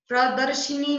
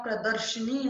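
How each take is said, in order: First: प्रदर्शनी said "pradarshinee"; wrong vowel. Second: Said in the usual way. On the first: Shown as a demonstration. Teacher correcting a mistake, प्रदर्शनी as "pradarshinee". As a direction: put an i after sh in प्रदर्शनी. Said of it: "नहीं होता". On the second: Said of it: "होता है".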